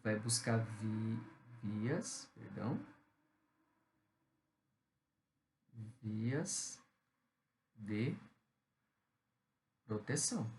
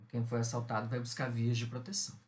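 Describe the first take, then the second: First: Very slow, word by word, with long pauses; teacher dictating to the class while writing. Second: Said in the usual way. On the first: Shown as a demonstration. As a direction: spell it out slowly as you write it on the board. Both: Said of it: "Deixa eu colocar aqui".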